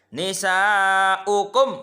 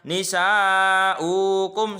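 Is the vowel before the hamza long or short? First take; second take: short; long. First: The vowel before the hamza is kept short. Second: The vowel before the hamza is held long. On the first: The speaker calls it right. "jadi dibaca pendek satu harokat" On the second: The speaker calls it wrong. "Nggak boleh dibaca nisa'ukum, salah"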